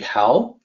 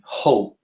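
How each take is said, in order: First: The vowel sounds like 'ow' in 'now'. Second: The vowel sounds like 'o' in 'go'. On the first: The speaker calls it wrong. "the pinyin system makes it seem like it should be how" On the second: The speaker calls it right. "it is actually supposed to be ho"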